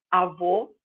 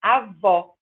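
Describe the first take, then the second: First: Avô with closed final O. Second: Avó with open final O. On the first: Teacher contrasts grandfather with grandmother. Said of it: "em vez de falar avô, eu falo avó". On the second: Teacher contrasts grandmother with grandfather. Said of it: "eu falo avó". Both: Shown as a demonstration.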